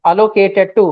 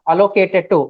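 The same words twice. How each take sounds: The two takes are said the same way.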